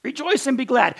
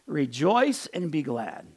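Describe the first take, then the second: First: Higher and louder, bursting with joy; preacher's joyful outburst; exuberant rejoicing. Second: Gentle rejoicing. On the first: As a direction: lift it up like good news. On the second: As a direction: let the joy settle gently. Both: Shown as a demonstration. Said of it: "not aggressive and offended".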